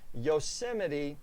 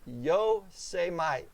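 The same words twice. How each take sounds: First: The name is said the standard way. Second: The name is said in a distorted way. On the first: The speaker calls it right. "he stumbled over Yosemite" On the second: The speaker calls it wrong. "pronouncing it Yosemite"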